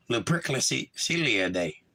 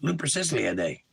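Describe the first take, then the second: First: Lupercilia spelled out slowly, syllable by syllable; working out a strange word aloud, slow; slow sounding out. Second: Said in the usual way. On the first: Shown as a demonstration. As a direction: sound out Lupercilia slowly, trying to get it right. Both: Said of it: "Happy Lupercilia Day".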